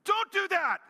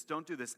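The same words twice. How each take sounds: First: Put-on high, loud mom scolding her kids; mom yelling. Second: Said in the usual way. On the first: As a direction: shriek it like a mother who's had enough. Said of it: "like a mom yelling at their children". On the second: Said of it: "This is like a mom yelling".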